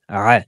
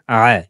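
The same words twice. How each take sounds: No difference in how they are said.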